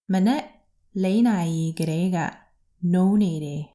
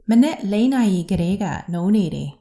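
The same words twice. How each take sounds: First: The sentence is spoken at a slow pace. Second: The sentence is spoken at a fast pace. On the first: "Let's say it slowly" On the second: "And faster"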